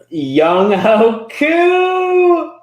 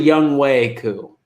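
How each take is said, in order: First: The middle syllable sounds like 'ho'. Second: The middle syllable sounds like 'way'. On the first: The speaker calls it wrong. "But Young Ho is so much fun" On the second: The speaker calls it right. "That's how you pronounce it"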